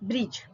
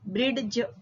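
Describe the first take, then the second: First: No D sound is pronounced before the J. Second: A D sound is pronounced before the J. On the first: The speaker calls it right. "ડ નો ઉચ્ચાર થતો નથી" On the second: The speaker calls it wrong. "બ્રિડજ એવો ઉચ્ચાર થતો નથી"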